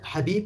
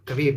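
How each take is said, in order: First: The name begins with a breathy h sound. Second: The name begins with a hard k sound. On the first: "ببدل حبيب" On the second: "الإنجليزي ... يقولون كبيب"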